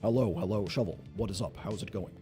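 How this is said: It is read imitating Tofu's voice.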